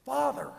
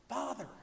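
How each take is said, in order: First: Much higher and louder call. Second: Repeated call. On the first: Wedding guest interrupting the priest, calling out loud. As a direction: call across the church to get his attention. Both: Retold or imitated. Man calls from fifth row.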